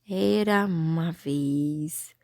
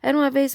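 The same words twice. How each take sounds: First: It is read slowly with pauses between words. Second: It is read quickly without pauses between words. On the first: Each word can be identified and the text understood better. The speaker calls it right. "se a gente lê devagar, pausadamente" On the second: Without word spacing the reader cannot stop to breathe. The speaker calls it wrong. "Não consegue parar, é complicado"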